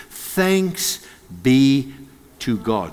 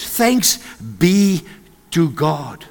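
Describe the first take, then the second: First: Thanks held, then be to God spaced out and softer; slow emphasis. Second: Said in the usual way. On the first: Shown as a demonstration. Preacher savouring the verse word by word, slow emphasis. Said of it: "Those first three words". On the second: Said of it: "The first four words".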